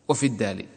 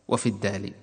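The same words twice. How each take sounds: Both takes have the same delivery.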